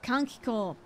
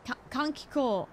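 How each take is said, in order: First: Kankiko with the kanji reading, kahn-kee-koh; repeating the word. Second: Kankiko with an aspirated k, not Kankigo; correcting herself. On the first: Echoing the game's voice, copying the Japanese word Kankiko. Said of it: "repeating the game's word". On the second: After saying Kankigo, correcting to the right Kankiko. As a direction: fix the g to a crisp k in Kankiko. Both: Shown as a demonstration.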